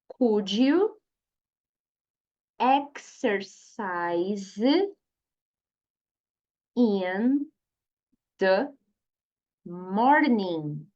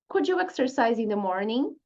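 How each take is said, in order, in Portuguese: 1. A frase é falada devagar e com cuidado. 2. A frase é falada em velocidade natural. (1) "Vamos falar mais uma vez devagarzinho" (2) "agora vamos falar naturalmente"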